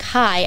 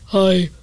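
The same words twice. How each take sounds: First: The voice sounds normal and clear. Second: The voice sounds raspy, from the back of the throat. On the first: The speaker calls it right. "instead of saying hi" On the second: The speaker calls it wrong. "I'd be like, hi. And like, I'm a 6-year-old smoker"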